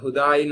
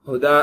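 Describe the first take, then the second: First: The word ends with a y sound. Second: The word ends on a long open vowel. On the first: The speaker calls it wrong. "இதை ஹுதாய் நம்ம நினைச்சு கூடாது" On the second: The speaker calls it right. "ஹுதா அப்படின்னு இருக்குல்ல"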